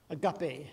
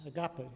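First: "agape" as uh-GAH-peh, ending on a crisp eh with a falling close; "agape" repeated, stress on GAH, final vowel bright eh and falling; Greek word said clearly. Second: "agape" said slowly, three syllables, stress on GAH, last vowel relaxed; Greek word said carefully. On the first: Preacher repeating the Greek word for his congregation, firm teaching tone. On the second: Preacher teaching the Greek word for love, spelling it out in sound. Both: Shown as a demonstration. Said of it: "the word that Jesus uses there is".

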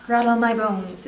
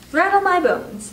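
First: Slow, restrained ghostly voice; soft spooky voice. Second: High, loud and drawn-out spooky parrot. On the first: Hidden parrot passing for a ghost, soft and spooky. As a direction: draw it out eerily, without raising the voice. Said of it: "soft and spooky this time". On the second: Parrot imitating a spooky voice, high and slow. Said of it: "wonderful imitation of his spooky voice". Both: A narrator's reading.

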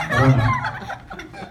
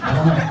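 First: Much higher, very slow, drawn out with a laugh; squeaky comic repeat. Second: Said in the usual way. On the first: Shown as a demonstration. Best man mocking the groom, high laughing squeak.

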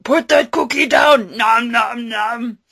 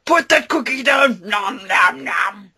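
First: Loud barked order, then munching; Schwarzenegger and Cookie Monster. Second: Schwarzenegger and Cookie Monster. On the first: Arnold ordering Cookie Monster to drop the cookie, loud. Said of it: "Cookie Monster and Arnold Schwarzenegger". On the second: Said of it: "Cookie Monster meets Arnold Schwarzenegger". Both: Acted. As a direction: bark the order like an action hero.

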